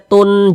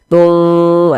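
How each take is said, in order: First: The n is sounded clearly and briefly. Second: The n is blurred, nasalized and held long. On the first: The speaker calls it wrong. "jangan kita baca tun jelas gitu, jangan" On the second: The speaker calls it right. "kita samarkan... kita dengungkan... kita panjangkan"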